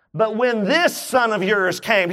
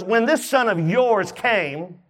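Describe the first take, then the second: First: Said in the usual way. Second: "this" drawn out with a rising tune; stress on this. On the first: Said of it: "did you notice this?". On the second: Shown as a demonstration. Preacher pointing out the brother's cold word "this". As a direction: lean slowly on "this". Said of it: "He didn't say, "When my brother came".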